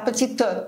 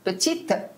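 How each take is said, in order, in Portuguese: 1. O E final é pronunciado como uma vogal. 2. O E final é mudo. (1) "ela fala petite, o petite, pior" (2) "em vez de falar petite"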